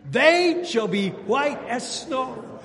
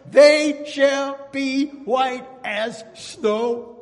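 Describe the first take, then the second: First: Slow, high, louder unison line; call and response. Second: Slow, high, louder sung-out proclamation; proclaiming scripture. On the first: Shown as a demonstration. Preacher leading the congregation in response, slow and loud. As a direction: lead the church in saying it together. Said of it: "Can you say that with me". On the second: Acted. Preacher proclaiming forgiveness to the church, slow ringing call. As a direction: stretch every word like a revival preacher.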